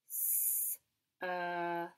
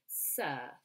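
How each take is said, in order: First: "s", then a long "ur" ending in "f"; sounded out. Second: Said in the usual way. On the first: Shown as a demonstration. Teacher helps children spell, "s, earth" sounded out as s-ur-f. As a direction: stretch "s, earth" as s, ur, f. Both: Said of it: "sentence I would like you to write".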